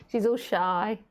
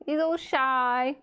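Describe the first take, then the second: First: Said in the usual way. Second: Put-on slow, higher, drawn-out baby voice; cooing pet talk. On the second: Shown as a demonstration.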